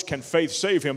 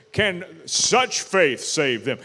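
First: Said in the usual way. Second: Slow, with weight on "such"; stress on SUCH. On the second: Shown as a demonstration. Preacher corrects a misread verse with the literal Greek, stressing "such". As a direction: lean hard on "such", drawing the question out slowly. Stresses the word the translation adds.

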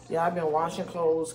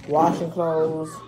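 First: Said in the usual way. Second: "Washing clothes" drawn out slowly and said louder; slow emphatic. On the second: Shown as a demonstration.

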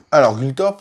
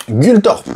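First: Said in the usual way. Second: Name called out high and loud, rising; title call. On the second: Shown as a demonstration. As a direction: announce the name brightly. Annonce le nom du cheval. (nom lancé haut et fort)

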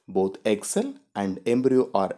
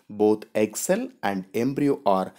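The two takes are said the same way.

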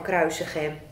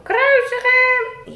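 First: Said in the usual way. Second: High, slow, loud mock crowd yell; crowd shout. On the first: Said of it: "ze blijven maar roepen van". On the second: Puppet Rick yelling the crowd's cry, high and slow. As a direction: chant it like the mob. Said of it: "ze blijven maar roepen".

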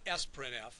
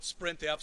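First: "sprintf" said as "ess-print-eff"; name the letter S before "printf" in "sprintf"; sprintf with spelled-out S. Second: "sprintf" said as one blended word, "sprint-eff". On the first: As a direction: say "sprintf" slowly, starting with "ess". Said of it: "some call it sprintf". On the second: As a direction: run the s straight into "print" in "sprintf". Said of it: "some people call it sprintf". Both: Shown as a demonstration.

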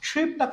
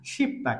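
First: সুইপ্তা with a "shwi" glide, as spelt; wrong pronunciation. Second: শিপ্তা as "ship-ta", glide dropped; higher-pitched model of শিপ্তা with plain "shi"; correct pronunciation. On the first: Teacher warning learners off the written form, wrong pronunciation. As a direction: say সুইপ্তা as "shwip-ta", the mistake. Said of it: "কখনোই হবে না". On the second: Teacher correcting the never-used form, correct pronunciation. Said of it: "এটার উচ্চারণ হবে". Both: Shown as a demonstration.

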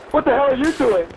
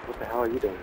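First: Exasperated yell. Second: Said in the usual way. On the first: Real, not acted. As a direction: yell it at the teammate in disbelief. Repeated rising outrage.

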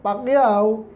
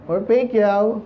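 First: Said in the usual way. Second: Pacquiao said the American way, like pe-kow; mock the American way of saying Pacquiao; American accent. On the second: Shown as a demonstration. Preacher mimics Americans saying the name, American accent. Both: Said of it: "Sabi ng Amerikano".

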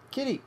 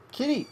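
No difference in how they are said.

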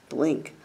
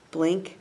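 No difference in how they are said.

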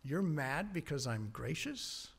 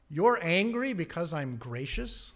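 First: Soft, slow question rising on you're; God asking quietly and patiently; God gently answering angry Jonah, soft and slow; gentle God. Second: Louder incredulous question, rising on you're; God pressing the point with a rising question; God challenging an angry prophet, incredulous rise; God questioning Jonah. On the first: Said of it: "And God comes back". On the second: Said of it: "God's question". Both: Acted.

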